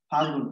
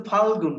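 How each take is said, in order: First: ফাগুন said short, without the l of ফাল্গুন; colloquial form. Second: ফাল্গুন with the l clearly sounded; full form. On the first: Teacher showing the class the song's word ফাগুন. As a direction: say "ফাগুন" as the song drops the l sound. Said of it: "সে বলেছে কি?". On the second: Teacher giving the class the proper word ফাল্গুন. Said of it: "শব্দটা কি ফাগুন ছিল না ফাল্গুন ছিল?". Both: Shown as a demonstration.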